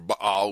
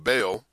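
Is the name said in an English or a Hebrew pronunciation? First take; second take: Hebrew; English. First: The name is said with a Hebrew pronunciation. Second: The name is said with an English pronunciation.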